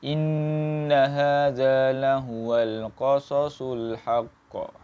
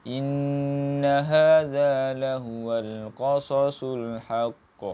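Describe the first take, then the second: The two takes are said the same way.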